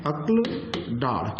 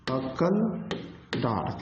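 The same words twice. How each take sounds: First: अक्ल with k and l joined, no vowel between; correct pronunciation. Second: अक्कल with doubled k and a vowel before the l, spoken slowly; umgangssprachliche Aussprache. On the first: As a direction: say अक्ल as akl, with a single k running into l. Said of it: "और शुद्ध यही होता है अक्ल". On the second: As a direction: say अक्कल slowly as two syllables, ak-kal. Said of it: "इसको कुछ लोग अक्ल भी कहते हैं". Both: Shown as a demonstration.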